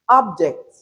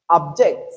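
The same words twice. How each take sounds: First: OBject, first syllable punched, second falling away; noun stress on first syllable. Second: ObJECT, weak first syllable, punched second; verb stress on second syllable. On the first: Teacher listing naming words, first syllable stressed in object. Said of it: "the first syllable of each". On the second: Teacher reading out the verbs, second syllable stressed in object. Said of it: "the stress is on the second". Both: Shown as a demonstration.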